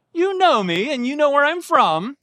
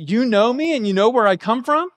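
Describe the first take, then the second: First: Mock-agreeing, pitched higher, rising on "know" each time; higher sarcastic tone with a lift on "know". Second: Rising question tune on "me" and lifting again on "from?". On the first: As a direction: let the sarcasm ride up on "know". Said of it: "making a sarcastic statement". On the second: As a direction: ask it, pitch climbing at the ends. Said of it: "you could take that as a question". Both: Shown as a demonstration.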